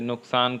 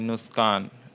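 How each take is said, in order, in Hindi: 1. k ध्वनि, s ध्वनि से पहले आती है। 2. s ध्वनि, k ध्वनि से पहले आती है।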